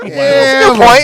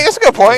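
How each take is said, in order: First: Mock agreement. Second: Said in the usual way. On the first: Teasing Shelly, repeated line.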